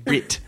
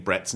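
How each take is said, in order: First: Britt, the e of Brett clipped to a short i in Kiwi style; Kiwi accent. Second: Said in the usual way. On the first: Shown as a demonstration. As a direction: say Britt for Brett, the New Zealand way. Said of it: "do Jermaine saying Brett's name, Britt". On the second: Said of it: "do Jermaine saying Brett's name".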